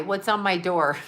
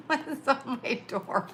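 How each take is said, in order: First: Said in the usual way. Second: Laughing. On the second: Real, not acted. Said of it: "laughs, repeats question".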